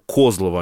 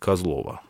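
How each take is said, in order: First: The stress is on the first syllable. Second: The stress is on a later syllable. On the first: The speaker calls it right. "в карельском варианте всегда ударение на первый" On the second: The speaker calls it wrong. "а не Козлово"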